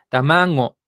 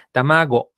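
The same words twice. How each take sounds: First: Tamango with the G made nasal, ng sound. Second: Said in the usual way. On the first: Shown as a demonstration. Teacher imitates the older announcer's nasal G in tamango. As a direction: say tamango as older speakers do, G through the nose. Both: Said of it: "que esta G la pronuncia nasal".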